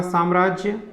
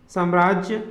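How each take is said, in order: First: साम्राज्य with long first vowel, "saamrajya"; correct साम्राज्य. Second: साम्राज्य with short first vowel, "samrajya"; wrong साम्राज्य. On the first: Teacher giving correct form, साम्राज्य with long aa. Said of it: "शुद्ध रूप होगा". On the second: Teacher showing the error, साम्राज्य with short a. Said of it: "अशुद्ध शब्द है". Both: Shown as a demonstration.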